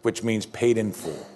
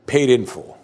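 First: Said in the usual way. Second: Paid in full, louder, with a hard stress on Paid; emphatic. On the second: Shown as a demonstration.

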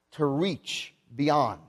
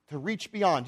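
First: Drawn out very slowly, falling; teaching the meaning slowly; slow definition. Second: Said in the usual way. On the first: Shown as a demonstration. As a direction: let "to reach beyond" hang, word by word. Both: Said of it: "it means".

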